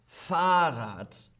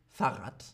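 First: The first vowel is held long. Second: The first vowel is cut short. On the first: The speaker calls it right. "Mit H, Vokal plus H, lang. Fahrrad" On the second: The speaker calls it wrong. "und nicht Fahrrad"

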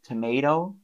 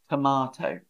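First: It is said with an American accent. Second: It is said with a British accent. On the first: "I think Americans say tomato" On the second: "I would say tomato"

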